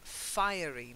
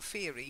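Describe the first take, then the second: First: The first part sounds like the word fire. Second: The first part does not sound like fire. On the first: The speaker calls it right. "because it's fire" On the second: The speaker calls it wrong. "not fiery"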